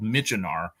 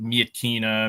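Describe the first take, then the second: First: The name is said the American way. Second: The name is said a non-American way. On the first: This is what American troops called the city. "a city the Americans called Michenar" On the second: This is another accepted way to say the name. "You could call it Mietkina"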